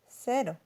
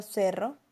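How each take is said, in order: First: Cero with a single quick tap r; cero, one light flap of the tongue. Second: Cerro with a rolled, trilled rr. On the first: Teacher contrasts cero against cerro. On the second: Teacher contrasts cerro against cero. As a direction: roll the rr in cerro. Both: Shown as a demonstration. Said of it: "la distinción de los fonemas r y r".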